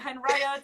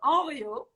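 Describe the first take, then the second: First: The H and final T are both pronounced. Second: The H and final T are both silent. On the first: The speaker calls it wrong. "It's not" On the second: The speaker calls it right. "don't pronounce the H or the T"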